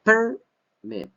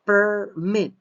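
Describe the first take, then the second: First: PERMIT with the first syllable high and loud; noun stress on PERMIT. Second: Permit with strong, high MIT at the end; raised, loud demonstration of per-MIT; verb stress on PERMIT. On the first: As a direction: punch PER in Permit, let MIT drop. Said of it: "permit here is a noun". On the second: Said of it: "Permit here is an action". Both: Shown as a demonstration.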